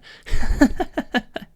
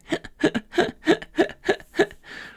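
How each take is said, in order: First: Breathy outward laughing burst. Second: Laughing while breathing in, very high and airy; gasping in-breath laugh; inward laugh. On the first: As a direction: laugh pushed out on the breath, high and loud. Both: Shown as a demonstration. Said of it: "try the inward laugh instead".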